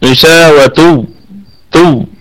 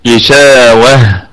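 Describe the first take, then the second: First: The word ends in a t sound with -un. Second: The word ends in an h sound. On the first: The reading continues past this word. "لكن في وصلة هتكون تاء" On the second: The reader stops on this word. "ونقف على هذه التاء التأنيث بالهاء"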